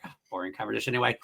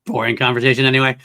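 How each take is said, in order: First: Quick throwaway quote. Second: Han Solo quote. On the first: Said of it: "I always get to the point where I'm like". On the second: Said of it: "That's my follow-up". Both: Retold or imitated.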